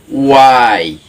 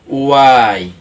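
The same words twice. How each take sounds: No difference in how they are said.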